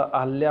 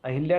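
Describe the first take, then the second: First: अहल्या as "a-hal-yaa", no i; "hal" syllable. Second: अहिल्या as "a-hil-yaa"; wrong inserted vowel. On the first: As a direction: open the middle of अहल्या to "hal". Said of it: "अहिल्या नहीं होता". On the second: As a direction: put a short i after h in अहिल्या. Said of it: "नहीं होता". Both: Shown as a demonstration.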